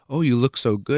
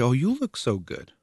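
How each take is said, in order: First: Higher, louder, gushy compliment; gushing compliment. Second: YOU pushed high in "Oh, you look so good"; compliment bounced back. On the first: Someone complimenting a friend's looks, gushing. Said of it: "if someone says". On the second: Friend returning the same compliment, high stress on "you". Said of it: "And you say". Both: Acted.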